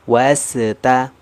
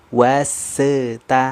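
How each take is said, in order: First: The s sound stops with a bounce. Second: The same.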